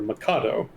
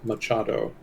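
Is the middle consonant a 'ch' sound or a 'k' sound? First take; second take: k; ch. First: The middle consonant is a hard 'k' sound. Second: The middle consonant is a 'ch' sound. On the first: The speaker calls it wrong. "I had been calling her Mikado" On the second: The speaker calls it right. "the correct pronunciation is Machado"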